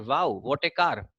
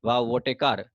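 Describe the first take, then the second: First: Wow drawn out slow and leaned on, excited; stressed Wow with real delight. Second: Wow said with no stress, like reading a list; mechanical. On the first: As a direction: land the weight on Wow, what a car slowly. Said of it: "we, we stress that". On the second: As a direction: rattle off Wow, what a car without feeling. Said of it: "ऐसे ही mechanically बोलूंगा". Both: Shown as a demonstration.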